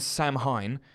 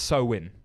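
First: The word is read out letter by letter. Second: The word is said unlike its spelling. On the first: "it's written Samhain" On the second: "but it's pronounced Samhain"

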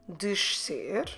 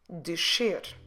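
First: The middle has an sh followed by an s. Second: The middle has a single sh sound. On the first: "pronouncing the sh and the su together" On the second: "Let's put those two sounds together in just a sh"

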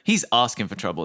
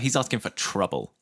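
First: The stress is on "asking". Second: The stress is on "trouble".

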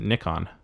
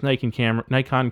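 First: Nikon is said the alternative, Japanese-style way. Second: Nikon is said the speaker's usual everyday way.

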